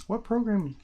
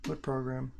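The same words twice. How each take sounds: First: What program? asked again, higher and louder; pushed, impatient repeat of What program?. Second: Said in the usual way. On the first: Real, not acted. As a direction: repeat it, insisting on an answer.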